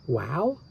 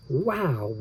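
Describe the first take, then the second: First: "Wow?" with a rising question tune; "Wow?" rising at the end like a question. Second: Said in the usual way. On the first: Shown as a demonstration. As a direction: ask "Wow?" as a puzzled question. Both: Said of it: "No, there's a question mark".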